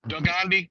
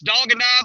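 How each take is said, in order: First: The name is blended into one running word. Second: The name is said as three separate words. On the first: This is a personal nickname form. The speaker calls it wrong. "I am mispronouncing it" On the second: This is the name's real form. The speaker calls it right. "I know that's Dog and I"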